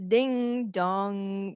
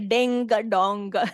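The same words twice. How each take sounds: First: The words end with a nasal ng sound. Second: The words end with a hard g sound. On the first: The speaker calls it right. "So it's ding dong. Nasal में जाता है वो sound" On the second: The speaker calls it wrong. "Don't say ding dong. ऐसे नहीं होगा"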